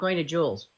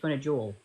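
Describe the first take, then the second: First: The name ends with an added s sound. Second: The name ends without any s sound. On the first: The speaker calls it wrong. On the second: The speaker calls it right. "No S"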